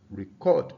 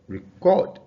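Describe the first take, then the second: First: The stress is on the second syllable. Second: The same.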